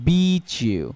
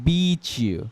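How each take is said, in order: First: The t and y merge into a ch sound. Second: The same.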